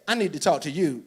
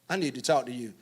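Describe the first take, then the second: First: It sounds accusing, as if blaming the listener. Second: It sounds exasperated, as if annoyed at someone else.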